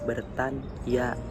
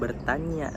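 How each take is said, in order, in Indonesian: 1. n dan y diucapkan terpisah. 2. Bunyi ny itu satu bunyi yang menyatu. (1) "tapi bertanya ... Dipisah" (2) "Bukan bertanya"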